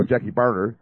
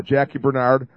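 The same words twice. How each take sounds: First: "Barnard" as BAR-nerd; corrected first-syllable stress. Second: "Barnard" as ber-NARD; mistaken second-syllable stress. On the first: Host correcting his slip on the surname, first-syllable stress. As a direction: say "Barnard" front-stressed, second syllable reduced. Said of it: "Robertson corrected me". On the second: Host slipping into the surname he preferred, second-syllable stress. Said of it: "no, Jackie Barnard". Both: Shown as a demonstration.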